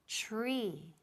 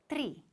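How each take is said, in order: First: The 'tr' starts with a 'ch'-like sound. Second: The 'tr' is said the Spanish way. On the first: The speaker calls it right. "It sounds like ch, ch, como C H, más R" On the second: The speaker calls it wrong. "Not tree. Tree is typical Spanish"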